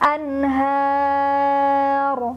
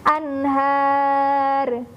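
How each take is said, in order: First: The final r flows out with no added vowel. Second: The final r ends with an echoing e vowel. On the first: The speaker calls it right. "huruf ro-nya akan jadi lebih tebal suaranya" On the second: The speaker calls it wrong. "ada bunyi e-nya"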